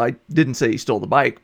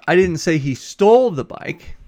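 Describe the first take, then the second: First: The word bike carries the main stress. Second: The word stole carries the main stress. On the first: Something other than the bike was stolen. "but he stole something else" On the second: The bike was taken some other way, like borrowing. "Maybe you said he borrowed it instead"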